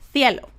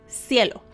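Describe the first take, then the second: First: The first sound is not a plain S. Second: The first sound is a plain S. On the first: "Spanish speakers from Spain, they say cielo" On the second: "in Mexico, we say cielo. just a normal S"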